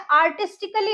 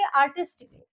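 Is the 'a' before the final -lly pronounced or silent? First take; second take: pronounced; silent. First: The a before -lly is pronounced. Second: The a before -lly is silent. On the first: The speaker calls it wrong. "ए का जो sound आता है ना कली, वो नहीं बोलेंगे हम" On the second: The speaker calls it right. "हम बोलेंगे आर्टिस्टिकली"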